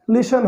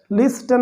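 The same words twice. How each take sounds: First: लिशन said with silent t, like lishan; correct pronunciation. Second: लिस्टन said with the t sounded, as the wrong way; wrong pronunciation. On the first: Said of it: "इसको हम पढ़ेंगे लिशन". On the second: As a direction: pronounce लिस्टन with a clear t, the mistake. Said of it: "लिस्टन नहीं होता". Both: Shown as a demonstration.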